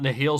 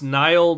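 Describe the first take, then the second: First: The name is said as two syllables. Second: The name is said as one syllable. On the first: The speaker calls it wrong. "not Nihil" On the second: The speaker calls it right. "I guess it's pronounced Nile"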